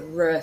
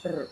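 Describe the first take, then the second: First: "R" untrilled, as in English. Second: "R" rolled on the tongue; trilled R. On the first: Teacher showing single R, "R" untrilled as in English. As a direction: voice a plain English "R" sound. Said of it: "it's like the English R". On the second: Teacher showing what to avoid, "R" rolled in a trill. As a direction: trill the "R" instead of the English sound. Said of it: "not a R sound". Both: Shown as a demonstration.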